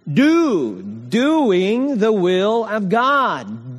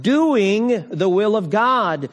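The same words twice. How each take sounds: First: "Doing the will of God" drawn out slowly, each word leaned on; slow emphatic preaching. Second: Said in the usual way. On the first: Acted. Preacher drives home main point.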